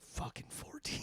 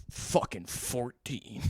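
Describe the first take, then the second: First: Breathless whisper of realization. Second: Slow, flat, unimpressed drawl; lightly voiced bored cop. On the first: Pretend. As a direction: whisper it to yourself. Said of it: "You're gonna be like". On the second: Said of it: "the most bored suburban cop in the whole world".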